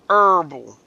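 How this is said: It is said the way the rest of the world does. "everybody else in the rest of the world says herbal"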